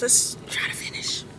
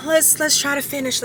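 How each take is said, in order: First: Tired whisper of "Let's try to finish"; whispered to herself. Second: Said in the usual way. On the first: Real, not acted. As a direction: breathe the words out voiceless. Repeat said in a whisper.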